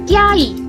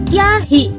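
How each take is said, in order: First: The final i follows with no h sound. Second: An h sound comes before the final i. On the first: "namun bisa juga dibaca kiai" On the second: "Ini dapat dibaca kiahi"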